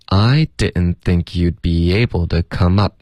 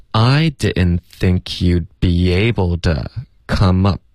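First: Said in the usual way. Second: Slow, linked sentence for practice; slow practice model. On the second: Shown as a demonstration. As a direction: model the two chunks joined, drawn out. (慢速连读两段示范) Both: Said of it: "练习第一段加第二段".

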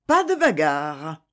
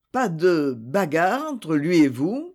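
First: "Pas de bagarre" with every syllable hammered out; forceful, deliberate "Pas de bagarre"; articulated with force. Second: Said in the usual way. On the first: A narrator's reading. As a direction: spit out "Pas de bagarre" firmly, each sound crisp. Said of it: "en articulant avec force". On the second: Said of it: "prononça Édith".

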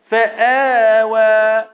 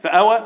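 First: فآوى chanted with a long held آ; slow, drawn-out فآوى in tajweed chant; full madd. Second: فآوى short and rising, like a question; quick spoken فآوى, no chant; shortened madd. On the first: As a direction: stretch the آ of فآوى slowly in recitation. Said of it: "المد ده هنا مد". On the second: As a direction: offer فآوى with a brief unstretched آ. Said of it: "ينفع أقول". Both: Shown as a demonstration.

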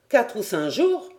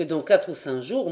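First: "Quatre ou cinq jours" thrown back higher, rising on "jours"; doubting echo question. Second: Said in the usual way. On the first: A narrator's reading. Ayrton questions the captain's estimate, doubting echo on "Quatre ou cinq jours". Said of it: "reprit Ayrton en hochant la tête".

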